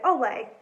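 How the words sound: It is said in a flat, bored way.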